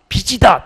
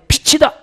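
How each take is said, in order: First: The middle consonant is said without aspiration. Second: The middle consonant is an aspirated ch sound. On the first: It sounds like the word for debt. The speaker calls it wrong. "그 빛쟁이라는 뜻이 그렇게 읽지 마시고" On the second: It means light. The speaker calls it right. "이렇게 정확하게 읽으세요"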